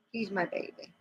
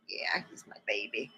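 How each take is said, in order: First: Said in the usual way. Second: Whisper. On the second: Real, not acted. Cooing over her cat.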